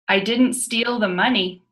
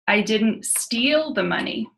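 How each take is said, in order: First: The stress is on the word money. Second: The stress is on the word steal.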